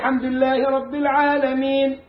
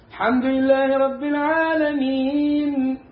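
First: The final long vowel is held briefly. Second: The final long vowel is held moderately long. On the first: "اثنين" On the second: "أدي أربعة"

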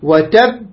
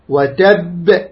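First: The final b is held firmly without release. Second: The final b is released with a slight echo. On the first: "هذا شدة" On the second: "هذا قلقلة"

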